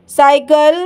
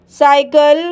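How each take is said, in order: Both takes have the same delivery.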